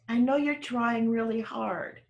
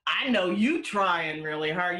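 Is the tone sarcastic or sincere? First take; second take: sincere; sarcastic. First: It sounds warm and sincere. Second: It sounds sarcastic and exasperated.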